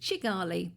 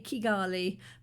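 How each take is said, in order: First: The word begins with a ch sound. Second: The word begins with a hard k sound. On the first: This is how people from the north say it. "have a slight Ugandan accent and pronounce it" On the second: This is how most people say it. "It's usually a hard K"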